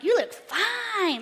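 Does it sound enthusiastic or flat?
enthusiastic. It sounds warm and enthusiastic.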